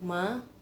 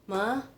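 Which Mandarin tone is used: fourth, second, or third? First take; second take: second; second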